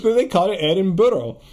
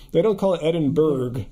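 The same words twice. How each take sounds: First: "Edinburgh" ending in "burra", no hard G; Scots-style "Edinburgh", louder; Scottish pronunciation. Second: "Edinburgh" ending in a hard "burg"; American pronunciation. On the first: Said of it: "I've talked to Scottish people". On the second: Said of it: "Edinburgh is very, you know, California". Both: Shown as a demonstration.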